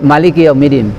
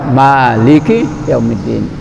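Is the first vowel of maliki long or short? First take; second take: short; long. First: The first vowel of maliki is kept short. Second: The first vowel of maliki is drawn out long. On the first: The speaker calls it wrong. "Tidak boleh maliki yaumiddin" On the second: The speaker calls it right. "Kita harus membaca maliki yaumiddin"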